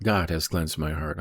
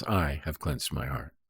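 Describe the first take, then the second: First: "God" stressed, the rest trailing after. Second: Slow down and lean on "I"; "I" set apart as the stressed word, in slow correction. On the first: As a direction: lean on "God" as the one doing it. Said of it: "this isn't". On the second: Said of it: "This is". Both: Shown as a demonstration.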